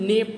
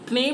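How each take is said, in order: First: The word begins with an n sound. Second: The word begins with a k sound. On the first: The speaker calls it right. "इसे हम नेव पढ़ेंगे" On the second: The speaker calls it wrong. "इसे हम क्नेव नहीं पढ़ेंगे"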